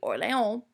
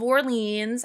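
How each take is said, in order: First: The name is pronounced the French way. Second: The name is pronounced the English way. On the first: "true French pronunciation would be" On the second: "If you want to put an English spin on"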